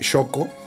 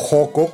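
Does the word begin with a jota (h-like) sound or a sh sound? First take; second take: sh; jota. First: The word begins with a sh sound. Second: The word begins with a rough jota sound. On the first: This is the speaker's own pronunciation. "pues ir al hospital de Xoco" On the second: This is how other people pronounce it. "como lo pronuncian otras personas"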